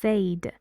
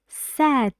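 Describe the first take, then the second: First: The vowel sounds like 'ay'. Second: The vowel sounds like 'eh'. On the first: The speaker calls it wrong. "many students uh, pronounce this because of its um, spelling. They say this word like said" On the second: The speaker calls it right. "It's said, and it sounds like eh"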